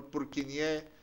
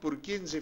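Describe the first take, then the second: First: The name is said with French pronunciation. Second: The name is said without French pronunciation.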